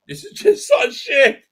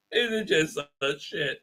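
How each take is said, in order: First: High, loud, slow squawk; exasperated outburst. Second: Said in the usual way. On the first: Real, not acted. Critic fed up with the show, high exasperated yell.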